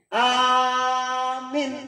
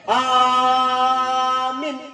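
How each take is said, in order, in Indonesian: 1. Vokal pertama panjang, yang kedua pendek. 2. Vokal pertama panjang, yang kedua pendek.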